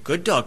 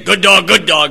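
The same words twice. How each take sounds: First: It is said in a soft, gentle tone. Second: It is said in a harsh, threatening tone. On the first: The dog feels welcome and comes over. "very gently" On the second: The dog feels threatened and cowers. "and the thing will cower down"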